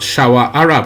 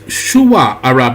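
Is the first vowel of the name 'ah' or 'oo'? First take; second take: ah; oo. First: The first syllable of the name has an 'ah' vowel. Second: The first syllable of the name has an 'oo' vowel. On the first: The speaker calls it wrong. "not Shawa Arab" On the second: The speaker calls it right. "it's Shuwa Arab"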